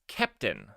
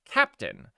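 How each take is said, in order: First: The first vowel sounds like in 'kept'. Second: The first vowel sounds like in 'cap'. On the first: The speaker calls it right. "there's an E, and so they're wrong" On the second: The speaker calls it wrong. "They say it's pronounced Captain"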